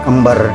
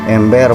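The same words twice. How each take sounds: First: The first vowel is a weak, reduced e. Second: The first vowel is a clear, open e. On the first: The speaker calls it wrong. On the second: The speaker calls it right. "E nya seperti ini ya, E curug"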